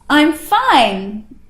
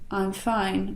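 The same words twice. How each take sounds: First: The voice projects energy outward, open and full. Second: The voice is held back, contained and closed. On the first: The feeling is shared openly. The speaker calls it right. "I'm throwing it out there" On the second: The speaker is protecting themselves. The speaker calls it wrong. "where I'm holding it in"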